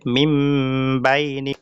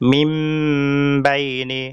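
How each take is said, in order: Both takes have the same delivery.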